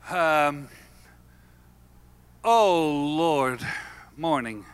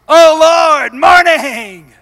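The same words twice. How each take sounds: First: It sounds weary and reluctant. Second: It sounds eager and excited. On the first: The day ahead feels like a burden. The speaker calls it wrong. "You get up in the morning and you don't say" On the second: The day ahead holds something to live for. The speaker calls it right. "Because you've got something to live for"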